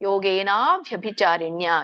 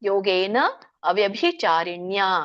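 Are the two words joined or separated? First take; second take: joined; separated. First: The two words run together as one. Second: The two words are said as separate words. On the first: "ಕೂಡಿ ಹೇಳಿ" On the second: "ಯಾರಿಗೆ ಕೂಡ್ಲಿಕ್ಕೆ ಹೇಳಲಿಕ್ಕೆ ಆಗಲ್ವೋ ಅವರು"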